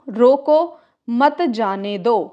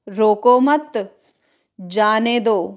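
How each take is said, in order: First: There is a pause right after 'roko'. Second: There is a pause right after 'mat'. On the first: "जैसे कि रोको, रोको, मत जाने दो" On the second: "एक लिख सकते हैं रोको मत, रोको मत, जाने दो"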